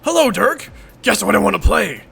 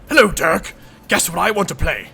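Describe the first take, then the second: First: It is spoken without a British accent. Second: It is spoken with a British accent. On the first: The speaker calls it wrong. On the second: The speaker calls it right.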